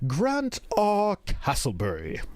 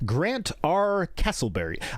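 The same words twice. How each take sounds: First: It is said in a put-on British accent. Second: It is said in the speaker's ordinary accent.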